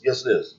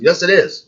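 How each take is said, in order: First: Said in the usual way. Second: Higher and louder, insisting; emphatic yes. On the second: Real, not acted. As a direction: snap it back with force. Insists against opponent.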